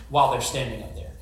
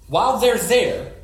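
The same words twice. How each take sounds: First: Said in the usual way. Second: "While they're there" slower and louder, rising on "they're"; stressed. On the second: Shown as a demonstration. Preacher stressing to the church the moment on the mountain, slow and loud.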